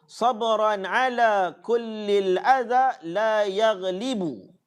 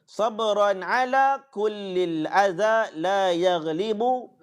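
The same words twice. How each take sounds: No difference in how they are said.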